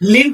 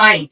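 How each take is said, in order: First: The vowel is short, like in give. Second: The vowel is long, like in five. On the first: The speaker calls it wrong. "লিভ মানে সরাসরি" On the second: The speaker calls it right. "লিভের একটি right pronunciation আছে, সেটা হচ্ছে লাইভ"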